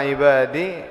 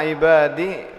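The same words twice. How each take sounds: The two takes are said the same way.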